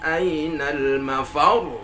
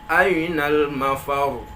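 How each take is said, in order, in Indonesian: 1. Nada naik pada suku kata sebelum yang terakhir. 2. Nada tetap datar sampai akhir. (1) "Harus naik dia" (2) "Kalau kita baca datar saja"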